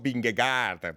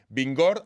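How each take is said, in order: First: The name is said as three syllables, Vin-ge-gaard. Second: The name is said as two syllables, Vingord. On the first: This is how the name reads from its spelling. "aunque lo leamos escrito Vingegaard" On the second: This is how the name is really pronounced. "esto me lo han enseñado a pronunciar"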